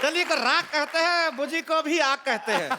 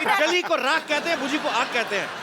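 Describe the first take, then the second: First: It is said in a Bihari accent. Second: It is said in a standard Hindi accent.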